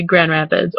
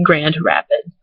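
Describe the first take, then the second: First: "Grand Rapids" run together as gran-RAPids; local pronunciation. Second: Slow "Grand Rapids" with a sounded d; careful pronunciation. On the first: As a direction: swallow the d of Grand before Rapids. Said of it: "I say Grand Rapids". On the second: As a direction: separate Grand from Rapids, keeping the d. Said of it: "I don't ever say". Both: Shown as a demonstration.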